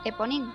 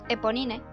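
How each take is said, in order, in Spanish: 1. Se pronuncia a la francesa. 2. Se pronuncia como se escribe: suena italiano. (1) "si fuéramos fieles a la procedencia del nombre, que es del personaje de Los Miserables" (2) "pronunciarlo tal cual se lee ... suena como Eponine. Sí, italiano"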